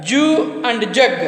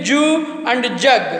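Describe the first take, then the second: The two takes are said the same way.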